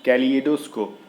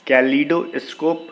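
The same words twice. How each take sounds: First: कैलिडोस्कोप with a clear "li-e" in the middle; correct pronunciation. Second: कैलिडोस्कोप said slowly and louder, as the wrong version; कैलिडोस्कोप slow and loud, as the mistake; wrong pronunciation. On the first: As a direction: say कैलिडोस्कोप as kay-lee-eh-do-scope. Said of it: "ली ए करके जो pronunciation कर रहे हैं ना, वो चीज़ सही है". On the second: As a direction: drag out कैलिडोस्कोप, the way it is mispronounced. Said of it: "ये एक अलग, मतलब, गलत word". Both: Shown as a demonstration.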